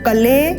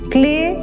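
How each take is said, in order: First: A vowel separates the k and the l. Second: The k joins directly onto the l. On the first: The speaker calls it wrong. "इसको कले नहीं बोलना" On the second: The speaker calls it right. "आधा क और ल ... क्ले बोलना है"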